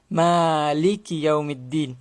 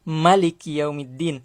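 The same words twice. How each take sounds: First: The vowel after the m is long. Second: The vowel after the m is short. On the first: This is the reading of two particular reciters. "yang membaca panjang huruf mim" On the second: This is the reading of most of the reciters. "membaca dengan pendek"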